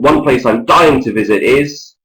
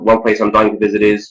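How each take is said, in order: First: It is said at a relaxed, natural speed. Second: It is rattled off far too quickly. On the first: The speaker sounds spontaneous. The speaker calls it right. "a natural speed" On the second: The speaker sounds like they memorised it. The speaker calls it wrong. "reel them out too quickly and they sound artificial"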